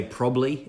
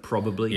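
First: "probably" squashed to PROB-lee; lazy pronunciation. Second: Said in the usual way. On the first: Shown as a demonstration. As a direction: drop the middle syllable of "probably". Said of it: "I often say probably instead of". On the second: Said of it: "instead of probably".

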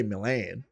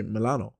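First: Said in the usual way. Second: "Milano" with an added final vowel; Italian form of Milan. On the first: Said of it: "you shouldn't say Milan". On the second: Shown as a demonstration. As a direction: say "Milano" for the city, Italian-style. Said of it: "You should say Milano".

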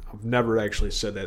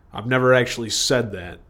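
First: Faster, much softer repeat; quick muttered repeat. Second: Said in the usual way. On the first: Real, not acted. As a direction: toss it off under the breath. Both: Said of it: "repeats line".

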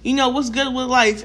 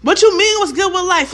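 First: Casual greeting to a friend; relaxed, everyday friendly question; friendly check-in. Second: Loud, high-pitched mock outrage; acted-out irate comeback, pitched up and loud; crazy person snapping. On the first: Acted. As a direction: ask it easily, as to a pal. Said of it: "you're my friend". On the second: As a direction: fire back like someone unhinged. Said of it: "only a crazy person sounds like that".

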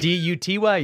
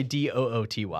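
First: Said in the usual way. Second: D O O T Y spelled out softer, letter by letter; spelling it D O O T Y. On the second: Shown as a demonstration.

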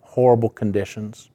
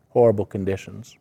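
No difference in how they are said.

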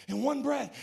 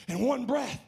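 No difference in how they are said.

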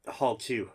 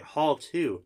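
First: Said in the usual way. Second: Higher, questioning HALL TWO; acted baffled query on "Hall two"; puzzled echo. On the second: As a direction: repeat "Hall two" in disbelief.

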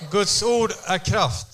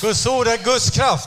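First: "Guds ord är kraft" spoken very slowly, stress on "ord"; slow lead line. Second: "Guds ord är Guds kraft" louder and slower, stress on the first "Guds"; proclaimed. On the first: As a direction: interpreter to congregation, leading the repeat slowly. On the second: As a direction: interpreter to church, proclaiming the line louder. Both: Shown as a demonstration. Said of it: "Säg".

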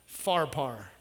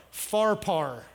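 First: "Pharpar" again as FAR-par, dropped low and soft; Pharpar, lower and softer. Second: "Pharpar" as FAR-par, both halves rhyming with car. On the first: Preacher confirms the name quietly to himself, low FAR-par. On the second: Preacher settles how he'll say the river, FAR-par, falling. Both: Shown as a demonstration. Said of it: "That's how I'm gonna say it".

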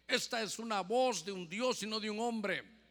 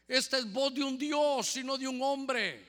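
First: Said in the usual way. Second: Louder, higher crowd acclaim for 'Esta es voz de un Dios'; crowd shouting. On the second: Retold or imitated. Preacher reading the crowd's cry to Herod, loud and high. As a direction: proclaim it like the adoring crowd. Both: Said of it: "Y la gente gritaba".

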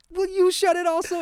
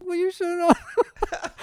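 First: Exasperated dad. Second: Put-on high, slow kid copycat; parrot voice. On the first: Retold or imitated. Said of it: "I'm like". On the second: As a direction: echo it back in a tiny voice. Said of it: "he just copies it".

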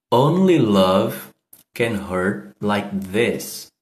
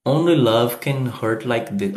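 First: Only love can hurt like this said very slowly, each word distinct; slow pronunciation demo. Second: Said in the usual way. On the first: Shown as a demonstration. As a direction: model the line slowly so students can copy it. (Only love can hurt like this pronunciado bem devagar) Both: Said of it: "como pronuncia".

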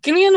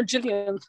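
First: Gillian with a hard G as in give. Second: Gillian said as Jillian, soft G. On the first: Unsure of the actress's name, Gillian with hard G. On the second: Offering another way to say her name, Gillian as Jillian. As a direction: start Gillian with a J sound. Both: Shown as a demonstration. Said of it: "however you say her name".

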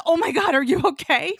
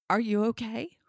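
First: Loud, high panicked question; acted-out horrified concern; alarmed check-in. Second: Careful question rising at the end; concerned check-in. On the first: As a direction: cry out in hammed-up alarm, rising at the end. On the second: Retold or imitated. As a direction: check on them gently but audibly. Partner's first check-in, acted.

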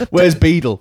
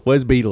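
First: High loud Where's Beetle shouted. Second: Said in the usual way. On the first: Pretend. Joke villain lines.

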